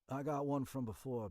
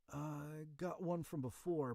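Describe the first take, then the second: First: The line is delivered clearly and confidently. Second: The line is delivered hesitantly and unsure. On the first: The character seems competent. The speaker calls it right. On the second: The character seems incompetent. The speaker calls it wrong. "A little too unsure"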